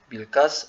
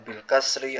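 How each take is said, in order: First: The final vowel of the last word is dropped. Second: The final vowel of the last word is pronounced. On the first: "jadinya bil fat, bil kas" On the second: "bukan bil fathi atau bil kasri"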